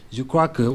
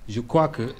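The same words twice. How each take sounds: The two takes are said the same way.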